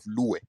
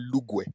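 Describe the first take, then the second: First: The middle consonant is a plain w sound. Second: The middle consonant is a gw sound. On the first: This is the Western dialect form. "instead of luwe" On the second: This is the Eastern dialect form. "you say lugwe"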